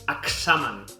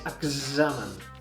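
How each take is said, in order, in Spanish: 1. La x es un sonido ks sordo. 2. La x es un sonido gz sonoro. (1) "No és com la X de taxi, no és examen" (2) "és examen"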